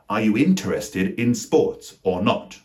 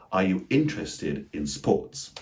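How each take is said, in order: First: INTERESTED in four full syllables, in-ter-es-ted; emphatic question, spelling out every syllable of interested; incredibly emphatic. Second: INTERESTED as IN-tres-ted, unhurried; three syllables. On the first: Acted. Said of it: "Unless you're being incredibly emphatic". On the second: Shown as a demonstration. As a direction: slowly, hit IN of interested with no middle "er". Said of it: "pronounce them rather with three syllables".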